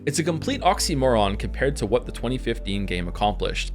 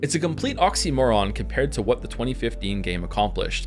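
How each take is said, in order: First: It is read in a put-on reviewer voice. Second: It is read in a put-on reviewer voice.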